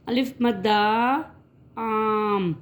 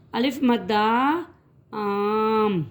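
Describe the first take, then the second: No difference in how they are said.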